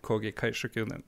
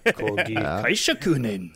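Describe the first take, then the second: First: The name is said calmly at normal volume. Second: The name is shouted loudly and with surprise.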